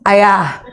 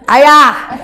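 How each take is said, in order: First: The call is pitched somewhat higher. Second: The call is pitched extremely high. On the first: It is the second call, after no response. "panggilan kedua suaranya naik setengah oktav" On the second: It is the third call, now exasperated. "mulai langsung tujuh oktav"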